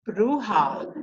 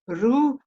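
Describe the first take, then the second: First: The final syllable is fully voiced. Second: The final syllable is only breathed, not voiced. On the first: The speaker calls it wrong. "I thought the word was ruha" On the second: The speaker calls it right. "They just breathe the H A. They don't voice it"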